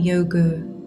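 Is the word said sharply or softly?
softly. It is said softly, with Sanskrit flow.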